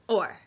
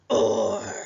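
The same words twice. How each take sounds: First: It is said in a normal speaking voice. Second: It is said in a growly monster voice.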